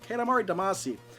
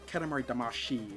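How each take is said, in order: First: The last syllable sounds like 'see'. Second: The last syllable sounds like 'shee'. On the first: This is how the speaker says it. "I say" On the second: This is how some other people say it. "some people say"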